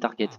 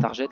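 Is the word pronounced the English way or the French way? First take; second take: English; French. First: The word is said with an English pronunciation. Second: The ending is said like French 'jette'. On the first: The speaker calls it right. "puisque c'est de l'anglais, c'est target" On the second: The speaker calls it wrong. "Target, ça se dit pas"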